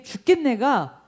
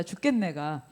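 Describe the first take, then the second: First: Slow, raised 죽겠네가, every syllable pressed; stressed 죽겠네가. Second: Said in the usual way. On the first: Shown as a demonstration. Preacher to congregation, stressing 죽겠네가. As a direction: spell out 죽겠네가 slowly. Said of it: "우리 입에 붙어 살아요". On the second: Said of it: "붙어 살아요, 진짜".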